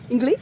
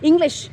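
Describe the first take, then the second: First: The final 'sh' sound is dropped. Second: The word ends with a 'sh' sound.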